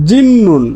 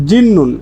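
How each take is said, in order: Both takes have the same delivery.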